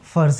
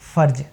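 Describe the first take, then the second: First: The word ends with a z sound. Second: The word ends with a j sound. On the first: It means duty. "फ और ज दोनों में नुक्ता लगा है" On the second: It names a female body part. "अगर आपने यहाँ ज से नुक्ता हटा लिया"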